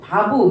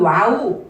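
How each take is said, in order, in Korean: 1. 이 단어는 V 소리로 시작합니다. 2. 이 단어는 W 소리로 시작합니다. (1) "V, 바, 비읍으로도 읽는다" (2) "W로도 읽고"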